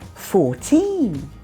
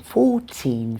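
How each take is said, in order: First: The stress is on the second syllable. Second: The stress is on the first syllable. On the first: The number stands on its own. "Vicky stressed the second syllable there" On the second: The number is one in a counted list. "If we're counting, the stress is on the first syllable"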